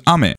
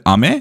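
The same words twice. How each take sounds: First: "ame" with the pitch accent for rain; "ame" meaning rain, not candy; Japanese word for rain. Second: "ame" with the pitch accent for candy; "ame" meaning candy, not rain; Japanese word for candy. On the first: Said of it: "the other means rain". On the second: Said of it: "one means candy". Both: Shown as a demonstration.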